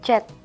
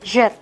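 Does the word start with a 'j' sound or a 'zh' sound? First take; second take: j; zh. First: It starts with a plain j sound. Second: It starts with a buzzing zh sound. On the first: The speaker calls it wrong. "Bukan dibaca jet" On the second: The speaker calls it right. "tapi jet"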